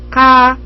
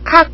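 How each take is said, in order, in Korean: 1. k는 숨이 약하고 가볍게 나와요. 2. k는 숨이 강하게 나와요. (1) "카와 까의 중간 발음" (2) "키읔 아니죠. ... 아닙니다"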